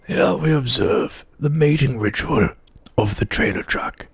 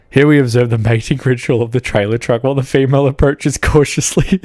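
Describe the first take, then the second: First: A hushed, lightly voiced Attenborough; softly narrate, fading at the end; nature documentary narrator. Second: Nature documentary. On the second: Acted. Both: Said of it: "an impression very well of ... Sir David Attenborough".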